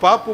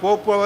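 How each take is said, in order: First: The vowel is an 'a' sound. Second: The vowel is a long 'o' sound. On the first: This is how the character in the story says it. "பாப்பு மாதிரி சொல்கிறான்" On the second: This is the usual way to say the word. "போப்பை வந்து"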